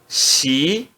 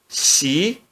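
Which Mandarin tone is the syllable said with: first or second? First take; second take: second; second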